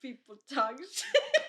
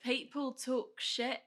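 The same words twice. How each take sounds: First: Put-on laughing through an Irish accent; Irish lilt, slow, breaking into laughter. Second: Slow attempt at an Irish accent, laughing; laughing try at Irish that comes out Australian. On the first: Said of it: "say it in, like, an Irish accent". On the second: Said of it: "that's, like, Australian".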